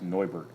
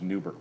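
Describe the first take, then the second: First: The name is said with a German vowel sound. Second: The name is said with an English vowel sound. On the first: "In German, it's actually pronounced Neubert" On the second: "because that's how we always pronounced it"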